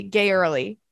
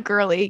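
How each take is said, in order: First: Put-on "gay early" run together as a play on girly; "gay early" blended into one word; punny pronunciation. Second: Said in the usual way. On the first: Shown as a demonstration. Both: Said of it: "instead of girly".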